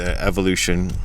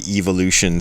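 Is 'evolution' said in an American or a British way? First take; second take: American; British. First: The word is said with an American pronunciation. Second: The word is said with a British pronunciation. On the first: "as we Americans say it" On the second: "they speak with British English over there"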